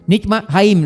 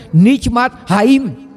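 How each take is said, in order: First: Said in the usual way. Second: Nitmat haim said slowly, each syllable drawn out; Hebrew term spelled out. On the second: Shown as a demonstration. Preacher teaching the Hebrew word, slowly. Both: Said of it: "o fôlego da vida em hebraico".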